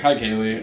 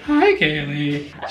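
First: The voice stays steady and smooth. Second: The voice cracks badly while speaking.

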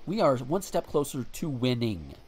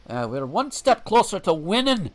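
First: It is said in the speaker's ordinary accent. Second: It is said in a Scottish or Irish-style accent.

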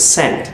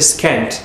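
First: There is no K sound after the S. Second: There is a K sound after the S. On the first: The speaker calls it right. "It's scent" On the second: The speaker calls it wrong. "Don't say scent"

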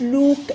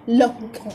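First: The vowel is long and drawn out. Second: The vowel is short and clipped. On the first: The speaker calls it wrong. "ما بنقولش لوك" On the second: The speaker calls it right. "بتبقى شورت او"

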